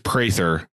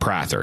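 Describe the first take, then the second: First: The first vowel is an 'ay' sound. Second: The first vowel is not an 'ay' sound. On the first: The speaker calls it right. "It is Prather" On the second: The speaker calls it wrong. "not Prather"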